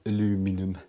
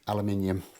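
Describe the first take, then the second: First: The word is pronounced the American way. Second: The word is pronounced the British way.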